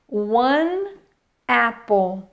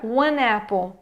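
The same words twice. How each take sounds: First: It is said slowly with the words kept apart. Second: It is said fast, sounding like one napple. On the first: "isso falando devagar" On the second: "Se eu for falar rápido"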